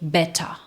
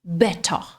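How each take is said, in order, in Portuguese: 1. O t é nítido, o r final some. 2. O t é nítido, o r final some.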